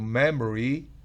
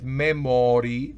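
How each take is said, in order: First: The middle o vowel is barely pronounced. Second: The middle o vowel is clearly pronounced. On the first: The speaker calls it right. "sino memory. La O es apenas susceptible" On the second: The speaker calls it wrong. "no es memory"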